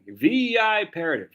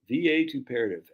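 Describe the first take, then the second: First: The first syllable has a long 'eye' vowel. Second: The first syllable has a short vowel. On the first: The speaker calls it right. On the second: The speaker calls it wrong.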